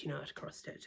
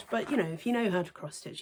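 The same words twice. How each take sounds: First: Whispered "you know how to cross stitch"; an offhand whispered reassurance. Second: Said in the usual way. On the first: Real, not acted. Repeated phrase whispered.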